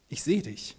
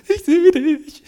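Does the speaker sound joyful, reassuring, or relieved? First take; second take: reassuring; joyful. First: It is said in a calm, reassuring tone. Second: It is said in a joyful tone. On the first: The listener is safe and not alone. "Kann Sicherheit geben" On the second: Seeing someone again is a happy reunion. "Kann Freude sein"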